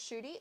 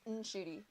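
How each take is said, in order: First: The name starts directly with an sh sound. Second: The name starts with an n before sh. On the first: The speaker calls it wrong. "it's not just Shooty" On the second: The speaker calls it right. "it's Nshooty"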